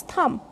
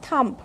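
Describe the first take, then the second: First: "thumb" with the final B left silent. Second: "thumb" wrongly ending in a plosive; sounded B in thumb. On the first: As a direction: say "thumb" ending on M, no B. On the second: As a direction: say "thumb" with a B or P after the M. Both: Shown as a demonstration. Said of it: "not thumb".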